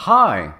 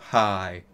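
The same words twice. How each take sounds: First: Said in the usual way. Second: Sad reply. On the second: A narrator's reading. Boy greets back, face all sad, subdued. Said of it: "his face was all sad".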